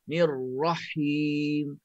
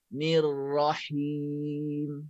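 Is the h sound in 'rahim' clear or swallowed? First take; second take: swallowed; clear. First: The ra is pressed high and the h disappears. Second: The ra stays light and the h is clear. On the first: The speaker calls it wrong. "Ini kesalahan bacaan yang salah saya baca ya" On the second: The speaker calls it right. "Sebenarnya kena baca"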